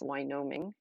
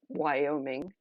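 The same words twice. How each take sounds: First: The word is pronounced in an altered, childlike way. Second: The word has its usual standard pronunciation. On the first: This is how a small child said it. "my preschooler mispronouncing" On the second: This is the real state name. "the state Wyoming"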